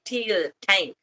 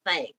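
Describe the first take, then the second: First: "tank" with a hard T for th; th as plain T. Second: Said in the usual way. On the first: Shown as a demonstration. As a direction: say "tank", T in place of TH. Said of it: "they say "Tia tank" instead of "thank". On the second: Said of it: "instead of "thank".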